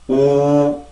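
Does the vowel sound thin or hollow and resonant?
thin. The sound is thin, with little mouth resonance. The speaker calls it wrong. "만약에 공간이 없으면 우, 우 이런 소리가 날 거고"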